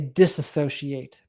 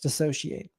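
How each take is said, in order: First: The word has an extra 'a' syllable. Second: The word has no extra 'a' syllable. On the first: The speaker calls it wrong. "I'm always tempted to say disassociate" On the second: The speaker calls it right. "but it's dissociate"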